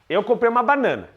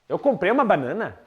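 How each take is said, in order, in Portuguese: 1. A voz cai, com um final firme. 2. A voz sobe no final. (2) "É uma pergunta"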